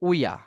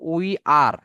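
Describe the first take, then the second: First: The words merge into one short syllable. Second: Two separate full words are said. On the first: "সংক্ষেপে বলতে পারি উইয়া" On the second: "উই আর কি হবে"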